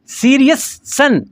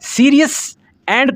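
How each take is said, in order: First: The two words are linked into one sound. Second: The two words are said separately.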